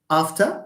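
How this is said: It is said with a British vowel. "In British English, yes"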